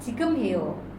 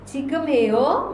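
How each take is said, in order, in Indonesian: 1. Nada turun di akhir. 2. Nada naik di akhir. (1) "Kalau kalimat berita" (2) "Kalau pertanyaan ya jadi intonasinya naik"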